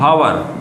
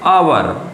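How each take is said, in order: First: The word starts with an audible h sound. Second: The word starts directly with a vowel sound. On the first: The speaker calls it wrong. "अब इस शब्द को बच्चे पढ़ते हैं हवर, लेकिन हवर नहीं" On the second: The speaker calls it right. "Actually में ये होता है आवर"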